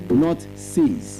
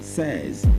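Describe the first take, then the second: First: The vowel is long, like in 'say'. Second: The vowel is short, like in 'set'. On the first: The speaker calls it wrong. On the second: The speaker calls it right. "That's the proper pronunciation of the word S A Y S"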